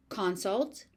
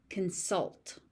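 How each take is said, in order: First: "Consult" said CON-sult, the noun; full "con", stressed, in "Consult"; stress on first syllable. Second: "consult" said kun-SULT, the verb; stress on second syllable. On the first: Teacher contrasting noun and verb, "Consult" stressed on CON. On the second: Teacher contrasting noun and verb, "consult" stressed on SULT. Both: Shown as a demonstration. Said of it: "also follows pattern one".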